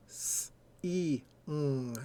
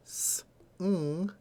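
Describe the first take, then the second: First: "s-e-ng" slowly as three separate sounds, ee in the middle; hissed s, long ee, hummed ng, with gaps; sounded out by phoneme. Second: "s-ng" as a hiss then a hummed ng, no vowel; bare "s", pause, then "ng" alone; vowel left out. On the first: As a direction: draw out "s-e-ng" sound by sound, vowel included. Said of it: "to tr-, correctly transcribe it". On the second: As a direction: sound out "s-ng" with the vowel missing. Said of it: "is not the word sing". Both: Shown as a demonstration.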